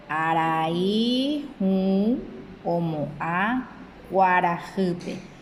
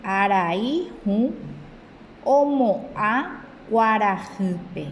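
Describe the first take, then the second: First: Word-by-word dictation pace; very slow repeat. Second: A careful, measured model reading; slow read for pupils; slow reading aloud. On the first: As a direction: split "Arai hũ omo'ã kuarahýpe" into separate words, very slowly. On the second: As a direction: read the Guaraní sentence slowly and clearly. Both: Shown as a demonstration. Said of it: "Dice, "Amoñe'ẽ mbo'ehárandive".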